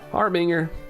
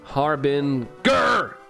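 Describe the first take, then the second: First: The G sound is soft and light. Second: The G sound is hard and forceful. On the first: "Probably still saying it wrong" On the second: "Like that? Harder G?"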